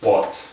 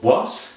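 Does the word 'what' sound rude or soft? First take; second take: soft; rude. First: The word is said in a soft, gentle way. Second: The word is said in a rude, abrupt way. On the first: The speaker calls it right. "remember to make it soft" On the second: The speaker calls it wrong. "That's rude"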